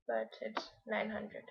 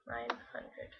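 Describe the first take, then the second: First: Said in the usual way. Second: Whispered under the breath. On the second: Real, not acted. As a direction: whisper it to yourself. Repeats the correction under breath.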